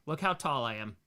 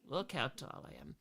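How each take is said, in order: First: Said in the usual way. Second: Very soft, small voice; hushed repeat. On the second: Retold or imitated. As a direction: say it under your breath.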